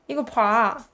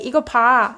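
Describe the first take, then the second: First: The phrase is said slowly and carefully. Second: The phrase is said fast and loosely.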